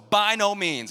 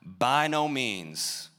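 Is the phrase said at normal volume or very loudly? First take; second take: very loudly; normal. First: The phrase is said very loudly. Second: The phrase is said at normal volume.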